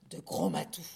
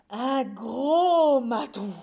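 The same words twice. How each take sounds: First: Sudden very low GROS MATOU; deep-voiced emphasis. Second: Huge slow bellow, GROS stretched out; startled shout. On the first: A narrator's reading. Narrator naming the missing cat, deep-voiced emphasis. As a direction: drop the voice right down on the name. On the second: Acted. Mice suddenly spotting the cat, long loud shout. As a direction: roar the big reveal.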